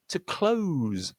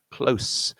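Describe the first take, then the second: First: "close" drawn out, ending in a buzzing Z. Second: "Close" ending in a hissed S, not Z. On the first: Teacher models the verb for learners, "close" with Z. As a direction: end "close" on a voiced Z, pitched high. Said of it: "that's a verb". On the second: Teacher models the adjective for learners, "Close" with S. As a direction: end "Close" on an unvoiced S. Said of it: "an ending with an S sound". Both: Shown as a demonstration.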